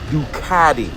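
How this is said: It is said in an American accent.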